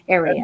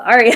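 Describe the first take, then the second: First: It sounds like the word area. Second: It sounds like the word aria. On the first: "because you say area" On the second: "I have to pronounce it that way"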